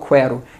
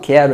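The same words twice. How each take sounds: First: A w sound is heard after the K. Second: The U is silent, with no w sound. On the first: The speaker calls it wrong. "eu não falo quero" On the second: The speaker calls it right. "eu falo quero"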